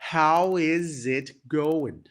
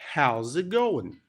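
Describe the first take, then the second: First: The word 'is' is said in full. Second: The word 'is' is contracted to an s.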